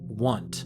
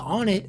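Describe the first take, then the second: First: The name sounds like the word 'want'. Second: The name sounds like the words 'on it'. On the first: The name fits the number puns of the other towns. "this town should be called Want" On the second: This is the long-used personal pronunciation. "I've been saying on it"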